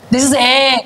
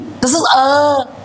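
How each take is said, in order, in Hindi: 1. अंतिम स्वर सपाट, फैले होठों से बोला जाता है। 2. अंतिम स्वर ढीले होठों से बोला जाता है। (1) "नॉर्मली हमर जो लिप्स रही छि एमे को फ्लैट कर दोजे" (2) "बट इट शुड बी"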